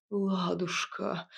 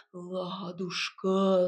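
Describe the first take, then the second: First: Ниже, медленно, томно; томно тянет имя; томный бас. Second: Очень медленно, ниже, как в трансе; тянет имя как зомби; зазомбированно. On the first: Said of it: "томно пробасил Илья". (томным басом, медленно) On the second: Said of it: "зазомбированно улыбнулся он". (зазомбированно, медленно и ниже) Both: A narrator's reading.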